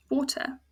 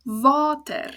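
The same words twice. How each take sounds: First: Said in the usual way. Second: "water" gesagt als "vater", mit W wie V und offenem A; "water" mit V-Laut vorne, langes offenes A; Dutch water. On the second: Shown as a demonstration. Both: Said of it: "the word underneath it".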